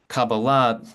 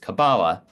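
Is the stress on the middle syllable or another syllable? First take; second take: another syllable; middle syllable. First: The stress is not on the middle syllable. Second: The stress is on the middle syllable. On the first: "the Hebrew pronunciation of the word" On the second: "the anglicized version ... the same pattern of emphasis as, for example, Madonna"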